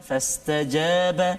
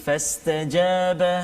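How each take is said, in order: Both takes have the same delivery.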